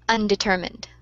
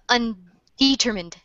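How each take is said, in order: First: The stress falls on the usual syllable. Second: The stress falls on an unexpected syllable. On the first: The speaker calls it right. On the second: The speaker calls it wrong.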